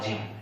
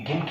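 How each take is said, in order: First: The word begins with a j sound. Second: The word begins with a hard g sound. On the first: The speaker calls it right. "इसको पढ़ते हो आप जिम" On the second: The speaker calls it wrong. "गिम क्यों नहीं बोले आप?"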